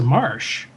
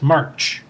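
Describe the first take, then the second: First: The name ends with a soft sh sound. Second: The name ends with a hard ch sound. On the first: This is the European way of saying the name. The speaker calls it right. "I think it's a Marsh" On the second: This is the American way of saying the name. The speaker calls it wrong. "not March, because I think March is, would be more like a you know, an American pronunciation"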